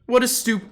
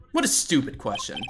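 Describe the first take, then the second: First: Trying Godot's voice. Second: Godot voice. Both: Shown as a demonstration. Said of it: "what kind of voice would he have?".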